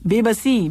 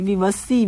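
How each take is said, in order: First: Corrected reading, be-ba-si; corrected word. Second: Tentative misreading, vi-va-si; misread word. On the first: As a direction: says बेबसी with a clear b sound, settled and falling. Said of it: "बेबसी और बेकसी का किस्सा". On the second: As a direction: reads विवसी with a v sound, unsure and rising. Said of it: "विवसी क्या लिखा हुआ है?". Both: Shown as a demonstration.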